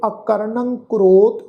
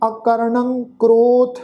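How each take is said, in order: First: ਅਕਰਣੰ with a nasal ending ਣੰ, slow and careful. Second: Said in the usual way. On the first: Shown as a demonstration. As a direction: sound the tippi in ਅਕਰਣੰ through the nose. (ਅਕਰਣੰ ਦਾ ਨਾਸਿਕ ਉਚਾਰਨ, ਹੌਲੀ) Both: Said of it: "ਟਿੱਪੀ ਦੀ ਮਾਤਰਾ ਦਾ ਨਾਸਿਕ ਉਚਾਰਨ".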